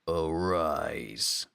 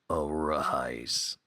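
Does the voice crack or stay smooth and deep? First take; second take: smooth; cracks. First: The deep voice stays smooth without cracking. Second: The deep voice cracks on the word.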